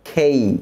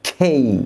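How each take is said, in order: The two takes are said the same way.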